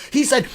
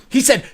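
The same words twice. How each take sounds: The two takes are said the same way.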